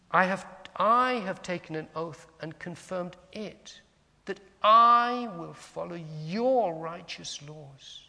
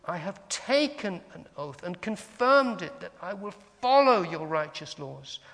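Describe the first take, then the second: First: "I" and "your" swelled long and strong; stress on pronouns. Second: "taken", "confirmed" and "follow" punched; stress on verbs. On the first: Teacher demonstrates meditating on a psalm, stressing "I" and "your". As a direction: slowly punch each "I", then "your". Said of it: "emphasizing the yous, the yours, the my's". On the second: Teacher offers another way to meditate, stressing "taken", "confirmed", "follow". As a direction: lean hard on "taken", "confirmed", then loud "follow". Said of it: "Or we can say". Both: Shown as a demonstration.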